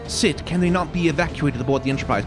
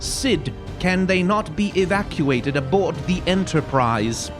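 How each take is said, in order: First: The words run together in a relaxed, casual way. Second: Every word is carefully and separately enunciated. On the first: "So not" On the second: "enunciate everything"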